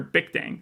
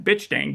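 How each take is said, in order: First: The first name ends with a k sound. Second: The first name ends with a ch sound. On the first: This is how it is said in the show. The speaker calls it right. "But he pronounces it there Bic Dang" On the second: This is how it looks when read from the spelling. The speaker calls it wrong. "I'm just reading it as Bitch Dang the entire time"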